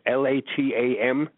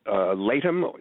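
First: It is spelled out letter by letter. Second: It is said as one single word. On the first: "or should I just say the letters" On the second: "let me know if I'm pronouncing this correctly"

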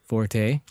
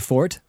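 First: The word is said as two syllables. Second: The word is said as one syllable. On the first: The speaker calls it right. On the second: The speaker calls it wrong.

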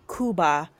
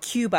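First: It is said with an affected Spanish-style pronunciation. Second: It is said with a plain English pronunciation.

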